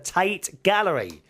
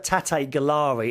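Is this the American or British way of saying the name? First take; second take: British; American. First: The name is said the usual British way. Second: The name is said the way some Americans say it. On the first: The speaker calls it right. "it's the Tate Gallery" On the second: The speaker calls it wrong. "Some Americans call it the Tate Gallery. That's wrong"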